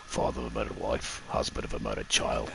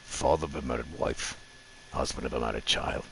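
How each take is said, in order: First: Low, quiet Gladiator-style growl; a lightly done gruff Roman general, low and hushed; Russell Crowe impression. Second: Low, quiet, half-hearted gladiator voice; bad Russell Crowe impression. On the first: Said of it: "This is my Russell Crowe impression". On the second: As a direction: try the gruff Roman general again, softly. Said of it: "I have bad impressions".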